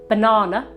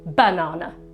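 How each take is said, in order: First: The stress is on the middle syllable. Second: The stress is on the first syllable. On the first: The speaker calls it right. "with the stress on the middle syllable" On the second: The speaker calls it wrong. "we can't really say banana with the stress on the first syllable"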